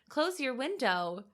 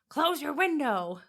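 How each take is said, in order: First: It is said in a polite, gentle tone. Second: It is said in a harsh, rude tone.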